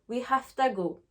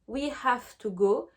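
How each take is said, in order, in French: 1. Les mots 'have to' sont contractés et plus rapides. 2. Les mots 'have to' se disent en entier.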